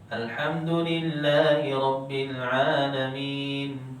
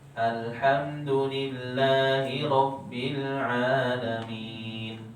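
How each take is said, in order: First: It is recited quickly, at the fastest pace. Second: It is recited at a somewhat faster, moderate pace. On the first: "Kalau dengan hadap lebih cepat" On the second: "Kalau takbir agak cepat dikit"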